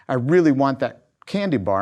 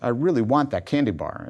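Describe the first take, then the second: First: The request is said in a pushy, insistent way. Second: The request is said in a mild, plain way.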